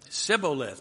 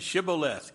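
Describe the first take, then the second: First: The word begins with an 's' sound. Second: The word begins with an 'sh' sound. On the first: The speaker calls it wrong. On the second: The speaker calls it right.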